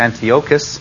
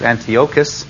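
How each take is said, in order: First: The name has a Hebrew-style pronunciation. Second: The same.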